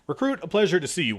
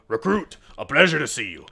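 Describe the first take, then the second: First: It is said in his normal voice. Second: It is said in a put-on character voice.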